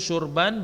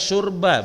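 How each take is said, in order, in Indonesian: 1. Kata ini berakhir dengan bunyi n. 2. Kata ini berakhir dengan vokal biasa. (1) "barisnya man mansub tanwin" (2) "Bukan sekadar mansub baris atas syurba, bukan"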